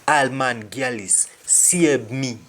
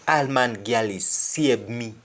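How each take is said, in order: Both takes have the same delivery.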